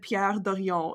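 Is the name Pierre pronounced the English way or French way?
French. Pierre is pronounced with a French accent. "I said Pierre Dorian"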